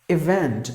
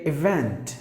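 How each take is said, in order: No difference in how they are said.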